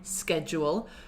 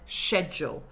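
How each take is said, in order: First: It is said with an American pronunciation. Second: It is said with a British RP pronunciation. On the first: "historically, Americans say schedule" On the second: "R P says schedule"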